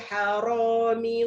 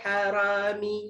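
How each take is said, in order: First: The r is heavy, with a rounded vowel. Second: The r is light, with an open vowel. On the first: The speaker calls it right. "macam tu" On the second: The speaker calls it wrong. "tak boleh ... salah"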